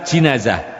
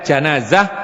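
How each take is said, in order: First: The first vowel is a front 'i'. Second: The first vowel is an open 'a'. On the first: The bier the body is carried on. "boleh di kasrah" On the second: The dead body itself. "Boleh di fathah jimnya"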